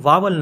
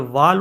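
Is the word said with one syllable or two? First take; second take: two; one. First: It has two syllables, with a w sound. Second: It has one syllable, with no w sound. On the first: The speaker calls it wrong. "जो कि गलत pronunciation है" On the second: The speaker calls it right. "ये pronounce नहीं होता, ये silent होता है"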